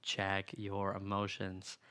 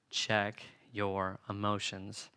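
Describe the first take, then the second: First: "Check" stretched out, softer, very slow; quieter slow repeat. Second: Slow, deliberate check your emotions with weight on check; slow emphasis. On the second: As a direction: lean hard on check, drawn out. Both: Shown as a demonstration.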